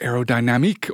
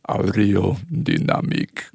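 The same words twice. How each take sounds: First: It is said with an English accent. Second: It is said with a French accent.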